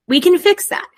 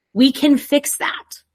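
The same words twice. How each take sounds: First: Higher, louder, stress on "can"; emphatic. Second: Said in the usual way. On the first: Real, not acted. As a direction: push it like a promise. Repeats reassurance more emphatically.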